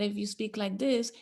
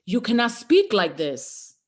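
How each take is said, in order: First: Softer, timid delivery; small, swallowed tone; held-back voice. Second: Louder and slower, voice unleashed; strong, freed tone; full open voice. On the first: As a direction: speak like you're scared of your voice. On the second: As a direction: let your real power out. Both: Shown as a demonstration.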